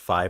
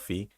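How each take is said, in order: First: The name is said with an English vowel. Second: The name is said with a Dutch vowel. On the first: "I think it's actually pronounced Fi" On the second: "that's kind of more the Dutch pronunciation"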